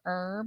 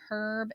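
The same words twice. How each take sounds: First: The word starts with no h sound. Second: The word starts with an audible h sound. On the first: This is how Americans say it. "instead of herb" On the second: This is how Australians say it. "in Australia they say herb"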